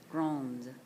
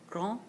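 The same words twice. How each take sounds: First: Grande said with the final d sounded; feminine form. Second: Grand said as a nasal gran, no d; masculine form. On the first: Teacher contrasting the two adjective forms: final d sounded. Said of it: "feminine form". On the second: Teacher contrasting the two adjective forms: silent d. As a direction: end Grand on the nasal vowel. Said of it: "masculine form". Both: Shown as a demonstration.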